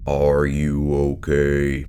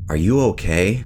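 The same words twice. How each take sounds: First: It is said in a deep, eerie, surreal voice. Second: It is said in a normal everyday voice. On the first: This is how it was heard in a confused state. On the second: This is what was actually said.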